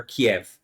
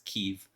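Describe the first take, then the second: First: Kiev in two syllables, kee-ev; Kiev, two beats, kee then ev. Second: Kyiv said as one syllable, keev; Kyiv, short like keev, no second vowel. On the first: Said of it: "they always said when I was younger". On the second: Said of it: "It was called Kiev until the war started". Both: Shown as a demonstration.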